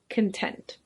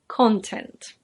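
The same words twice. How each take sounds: First: The stress is on the second syllable. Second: The stress is on the first syllable. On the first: It is the adjective meaning pleased or satisfied. "But this adjective is pronounced content" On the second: It is the noun. "There is a noun with the same spelling, and that's pronounced content"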